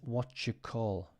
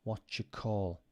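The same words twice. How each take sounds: First: "Do you" blends into one sound like "jew". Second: The same.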